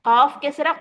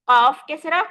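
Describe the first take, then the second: Both takes have the same delivery.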